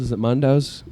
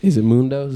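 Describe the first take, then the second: First: "Mundo's" with an uh, MUN-dohz; second pronunciation option. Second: "Mundo's" with an oo, MOON-dohz; first pronunciation option. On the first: Host offers viewers the other choice, "Mundo's" said MUN-dohz. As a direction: say "Mundo's" as MUN-dohz, open first vowel. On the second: Host offers viewers a choice of names, "Mundo's" said MOON-dohz. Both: Shown as a demonstration. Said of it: "How do you pronounce it?".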